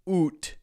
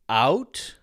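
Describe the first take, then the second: First: It is said in a Canadian accent. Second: It is said in an American accent. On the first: "Canadians tend to say oot" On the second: "Americans tend to say out"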